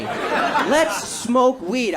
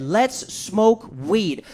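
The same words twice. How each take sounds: First: Even slower, savoured repeat; repeating the buddy's slow invitation; slow stoner drawl. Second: Slow, drawn-out invitation; buddy's slow lazy offer to smoke; slow stoner drawl. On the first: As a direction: drag the words out even more. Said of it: "That's what the fuck he said to me". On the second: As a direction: stretch every word lazily. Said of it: "This is what he said". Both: Retold or imitated.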